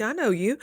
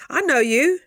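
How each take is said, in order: First: Said in the usual way. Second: Higher, louder playful repeat; loud, high, teasing I know you. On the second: Shown as a demonstration. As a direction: call them out with a grin.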